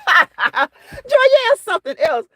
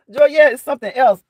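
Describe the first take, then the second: First: Laughing. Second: Said in the usual way. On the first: Real, not acted. Laughing at a chat comment.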